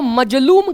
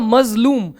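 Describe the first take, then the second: First: The second consonant is a plain 'j' sound. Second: The second consonant is a 'z' sound. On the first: The speaker calls it wrong. "मजलूम कहना ठीक नहीं है" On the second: The speaker calls it right. "सही उच्चारण होगा मजलूम"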